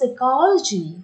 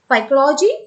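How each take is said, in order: First: The word starts without any P sound. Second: The word starts with a spoken P sound. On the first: The speaker calls it right. "this P is silent" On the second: The speaker calls it wrong.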